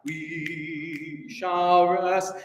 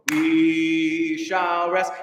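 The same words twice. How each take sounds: First: "We shall rest" drawn out very slowly, each word held; slow demo. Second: Sung, 1. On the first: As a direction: speak "We shall rest" very slowly as the choir did. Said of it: "this middle section is just too slow". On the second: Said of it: "speak for me at twenty-five". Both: Shown as a demonstration.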